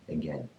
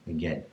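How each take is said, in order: The two takes are said the same way.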